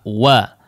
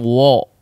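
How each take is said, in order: First: The vowel is an open, unrounded a. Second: The vowel is a thick, rounded o. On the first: The speaker calls it right. "dibuka dulu si fathahnya, ya, si mulutnya dibuka dulu" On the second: The speaker calls it wrong. "jangan wo"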